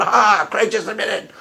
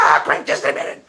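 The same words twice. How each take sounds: First: Lightly voiced smug atheist, slower; mock a gloating atheist, drawn out; gloating atheist imitation. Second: Breathy whispered mock of a gloating atheist; whispered atheist imitation. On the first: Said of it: "that's my atheist imitation". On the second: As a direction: hiss it like a smug atheist, softer. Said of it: "That's my atheist imitation".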